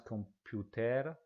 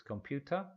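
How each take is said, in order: First: "computer" with a tapped Spanish R at the end; wrong Spanish R. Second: "computer" said kom-PYOO-tuh, no final R; correct English. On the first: Teacher showing learners the error: "computer" with a hard final R. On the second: Teacher modelling the right way: "computer" with a silent final R. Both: Shown as a demonstration. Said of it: "Nota otra vez el R".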